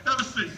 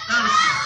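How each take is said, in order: First: Said in the usual way. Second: "seat" blasted out much higher and louder; sudden high shout. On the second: Acted. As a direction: bark the line at the volunteer out of nowhere. Inviting volunteer to sit.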